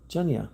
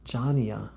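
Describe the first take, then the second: First: "Junya" in two syllables, JUN-ya; unsure name pronunciation. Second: "Jania" with an open first vowel, JAH-nee-ah; corrected name pronunciation. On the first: Streamer trying a viewer's unfamiliar name, unsure pronunciation. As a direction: say "Junya" as a first guess, JUN-yah. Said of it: "not sure how to pronounce it". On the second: Streamer repeating a viewer's corrected name, corrected pronunciation. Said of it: "Wow, it's very melodic". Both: Real, not acted.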